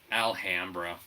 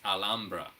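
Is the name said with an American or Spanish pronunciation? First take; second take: American; Spanish. First: The name is said with an American pronunciation. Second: The name is said with a Spanish pronunciation. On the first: "for the sake of our Americanized speak" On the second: "making sure that we pronounce it correctly"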